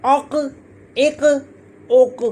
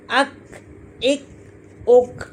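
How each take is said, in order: First: "अक, एक, उक" with a back q bouncing as "quh"; heavy "अक, एक, उक" with released endings; qalqalah on qaf. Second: "अक, एक, उक" with a light k held shut; "अक, एक, उक" ending in a closed k; k without bounce. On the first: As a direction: echo the throaty q in "अक, एक, उक". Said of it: "इसको हिलाया जाएगा". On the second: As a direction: stop each k of "अक, एक, उक" without echo. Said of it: "यहाँ दब जाएगी". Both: Shown as a demonstration.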